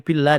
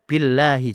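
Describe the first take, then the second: First: The word stops short without its final vowel. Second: The word ends with a final vowel sound. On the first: The speaker calls it wrong. "Tidak boleh billah, tidak boleh" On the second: The speaker calls it right. "Harus baca billahi sesuai dengan tata bahasa"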